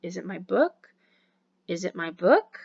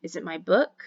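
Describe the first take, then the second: First: Each "book" rising at the end; rising intonation again. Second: "book" lifted up at the end like a question; rising intonation. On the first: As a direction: repeat it with a climb on "book". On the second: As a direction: let the pitch climb on "book". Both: Shown as a demonstration. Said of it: "number one drill for rising inflection".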